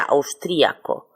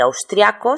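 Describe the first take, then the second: First: Austríaco, the í stressed and split from the a. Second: Austriaco, the ia as one syllable; austriaco without stress. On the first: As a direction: say austríaco with the accent on the í. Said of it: "con acento cuya pronunciación sería". (austríaco con acento en la í) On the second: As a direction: say austriaco as a diphthong. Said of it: "austriaco sin acento". (austriaco sin acento) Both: Shown as a demonstration.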